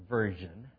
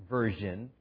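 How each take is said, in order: No difference in how they are said.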